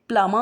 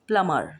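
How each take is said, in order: First: It ends without an r sound. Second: It ends with an r sound. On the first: "British में वो प्लमा होगा" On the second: "American में प्लमर होगा"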